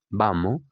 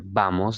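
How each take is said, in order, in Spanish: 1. La s final se debilita o se omite. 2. La s final se pronuncia claramente. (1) "la gente dice" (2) "en lugar de decir"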